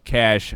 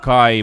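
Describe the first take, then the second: First: The name ends with an sh sound after a. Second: The name rhymes with eye and has no final sound. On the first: This is a joking nickname pronunciation. "somebody pronounced his name Cash" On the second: This is the name's real pronunciation. "His first name is actually pronounced Kai"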